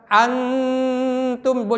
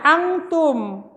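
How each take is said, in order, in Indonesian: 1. n tersembunyi dalam dengungan sengau. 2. n diucapkan sebagai konsonan penuh.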